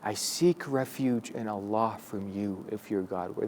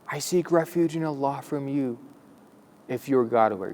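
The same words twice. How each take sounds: First: The sentence is said quietly, in a low voice. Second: The sentence is said loudly, like a shout. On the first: The speaker calls it right. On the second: The speaker calls it wrong.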